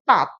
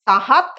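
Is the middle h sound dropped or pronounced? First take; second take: dropped; pronounced. First: The middle h sound is dropped entirely. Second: The middle h sound is clearly pronounced. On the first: "কেউ কেউ বলেন তাত" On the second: "সেটা কিন্তু উচ্চারণ হয় তাহাত"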